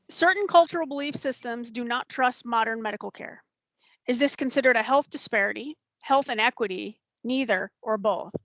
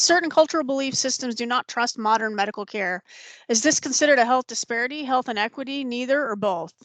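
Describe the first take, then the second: First: It is read slowly. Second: It is read fast.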